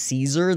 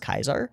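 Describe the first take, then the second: First: The word begins with a soft S sound. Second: The word begins with a hard K sound. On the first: The speaker calls it wrong. "a soft C, so if somebody says Caesar, they're wrong" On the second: The speaker calls it right. "It's Kaiser"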